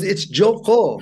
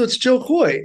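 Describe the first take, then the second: First: "Koy" said as "Koh", with no final y glide; aunt's correct pronunciation. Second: Said in the usual way. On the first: Retold or imitated. Aunt correcting her nephew's nickname, "Koy" pronounced "Koh". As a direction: say "Koy" to rhyme with "go". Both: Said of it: "supposed to be Jo Koh".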